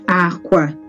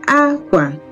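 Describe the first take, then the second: First: Both syllables are on a low pitch. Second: Pitch starts high, then goes low. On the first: "they are both low uh, pitch tone" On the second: "High, low"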